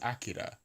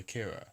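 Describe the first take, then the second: First: Japanese-style, stress first, flapped R sound. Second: English-style, with an English R sound. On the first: "the Japanese is Akira, right? With the stress on the first syllable and the the the trill on the R" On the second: "do you just anglicize it and say Akira?"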